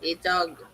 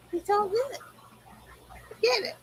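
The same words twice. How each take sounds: First: Said in the usual way. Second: Much higher, small voice, softer; high pet talk. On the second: Real, not acted. Owner settling a restless pet, high-pitched pet talk.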